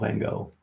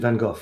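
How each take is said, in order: First: The name is said in an American way. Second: The name is said in a British way. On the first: "Americans, I think they say Van Gogh" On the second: "in English pronunciation, Van Gogh, I think we say"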